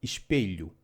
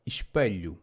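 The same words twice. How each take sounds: First: "espelho" with a clear E, ish-peh-lyoo; "espelho" as ɪʃpeʎu, open E before the lh; alternative pronunciation. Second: "espelho" with a reduced middle vowel, ish-puh-lyoo; "espelho" as ɪʃpəʎu, schwa before the lh; first pronunciation. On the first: Teacher offering the easier variant, a quiet demo. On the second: Teacher giving the first regional variant, a plain demo. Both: Shown as a demonstration. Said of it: "which can also be pronounced".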